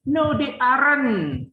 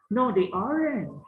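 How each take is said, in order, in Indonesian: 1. Diucapkan dengan aksen Barat, mirip penutur asli bahasa Inggris. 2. Diucapkan dengan aksen bahasa Inggris ala Indonesia. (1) "Lidah abang kebanyakan makan keju, udah ke barat-baratan" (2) "abang ikuti aja lah pronunciation pengucapannya orang Indonesia aja"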